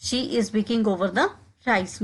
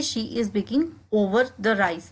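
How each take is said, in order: First: Slow, careful drill phrase; slowed classroom demo; slow model repetition. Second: Said in the usual way. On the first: Shown as a demonstration. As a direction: say it slowly for learners to copy. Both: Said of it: "इसको हम English में कहेंगे".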